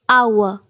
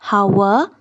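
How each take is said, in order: First: The h sound is silent at the start. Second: The h sound is pronounced at the start. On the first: The speaker calls it right. "H is silent in hour" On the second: The speaker calls it wrong. "It's not hour"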